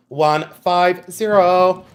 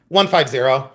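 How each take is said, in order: First: ONE, FIVE, ZERO stretched slowly; drawn-out number. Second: Said in the usual way. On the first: Shown as a demonstration. Seller announcing the price to live buyers, "One five zero" drawn out slowly.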